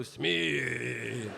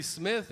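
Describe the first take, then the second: First: Smith stretched long in mock Japanese accent; exaggerated Japanese-style Smith. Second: Said in the usual way. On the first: Shown as a demonstration. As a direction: drag out Smith as a caricatured Japanese word. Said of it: "it's Japanese". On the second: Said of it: "and if you wanna go".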